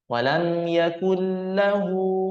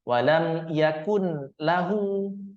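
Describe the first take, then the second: First: The n merges into the l without nasal hum. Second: The n is pronounced separately before lahu. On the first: The speaker calls it right. "Mesti kita masukkan" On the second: The speaker calls it wrong. "Tidak boleh kita pisah. Tidak boleh kita baca seperti ini"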